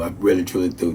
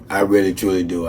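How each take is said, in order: First: Softer, fading thanks; sincere thanks. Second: Soft, low, heartfelt; mean every word of it quietly; sincere thanks. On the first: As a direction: let the repeat sink quieter. Repeated softer. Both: Real, not acted.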